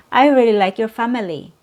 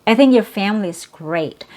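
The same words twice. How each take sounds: First: "family" said FAM-uh-lee with every syllable sounded; three-syllable family. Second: "family" said FAM-lee inside a quick, natural sentence; two-syllable family. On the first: Teacher showing what natives don't say, "family" as FAM-uh-lee. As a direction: keep the middle schwa in "family", quick sentence. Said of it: "you don't hear native speakers say". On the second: Teacher showing how native speakers talk, "family" as FAM-lee. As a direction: drop the middle schwa in "family". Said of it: "you'll only hear two". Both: Shown as a demonstration.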